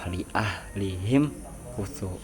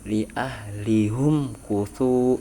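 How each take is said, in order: First: The syllable is pronounced 'him' with an i vowel. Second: The syllable is pronounced 'hum' with a u vowel. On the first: This is the other reciters' reading. "tetap dibaca kasroh" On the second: This is one reciter's reading when joining words. "ketika mewasolkan dibaca domah"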